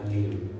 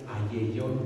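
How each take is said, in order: First: The double L is read the Greek way. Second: The double L is read the Spanish way. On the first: The speaker calls it right. "pero se pronuncia aleión" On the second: The speaker calls it wrong. "Nuestra pronunciación en español sería ayellón"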